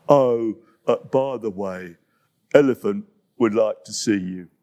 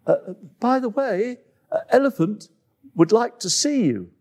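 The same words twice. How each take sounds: First: Lumbering big animal voice; low dopey hippo voice. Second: High, halting, a bit awkward; high nervous animal voice; hesitant antelope voice. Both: Acted.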